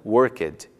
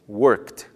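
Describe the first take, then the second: First: The ending adds an extra vowel syllable. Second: The ending is a plain t sound. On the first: The speaker calls it wrong. "e não worked, incluindo o som da vogal E" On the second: The speaker calls it right. "pronuncia-se worked"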